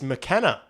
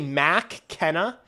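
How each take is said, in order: First: The first syllable has a short, reduced vowel. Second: The first syllable has a full 'mac' vowel. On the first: The speaker calls it right. "It's McKenna. Is there's there's no A there" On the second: The speaker calls it wrong. "Did I say Mac Kenna?"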